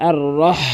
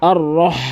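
No difference in how they are said.

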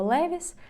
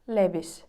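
First: The middle consonant is a clear v sound. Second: The middle consonant is closer to a b sound. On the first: "який ми називаємо" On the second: "Більш через звук В всередині. Б"

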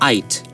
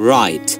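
First: The word begins without any R sound. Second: The word begins with an audible R sound. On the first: The speaker calls it wrong. "যদি আপনি রা উচ্চারণ না করেন তাহলে কি হবে? আইট" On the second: The speaker calls it right. "British English এ যদি শুরুতে ra sound থাকে, British English এ উচ্চারণ হবে"

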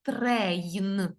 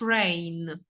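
First: The r sound is fully voiced. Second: The r sound is devoiced. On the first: "давайте я дзвінко вимовлю трейн" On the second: "А ри ми оглушуємо і виходить train"

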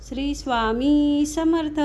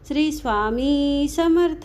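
No difference in how they are said.

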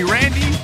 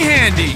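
First: The name begins with an English R sound. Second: The name begins with an H sound. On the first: "In America, they call me Randy" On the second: "in Brazil, they call me Handy. Because they can't pronounce the R"

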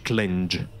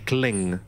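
First: The word ends with a soft 'j' sound. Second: The word ends with a plain 'ng' sound. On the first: The speaker calls it wrong. "non è che dici clinge" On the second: The speaker calls it right. "dici cling"

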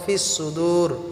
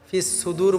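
First: The s sounds are heavy and thick. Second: The s sounds are light and thin. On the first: The speaker calls it right. "সোয়াদগুলিকে আমরা মোটা করে উচ্চারণ করব" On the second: The speaker calls it wrong. "বললে হবে না"

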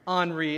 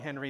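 First: The name is said with French sounds. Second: The name is said with English sounds. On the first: The speaker calls it right. "it's the French pronunciation of Henry" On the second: The speaker calls it wrong. "I was pronouncing it wrong"

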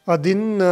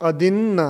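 The two takes are said the same way.

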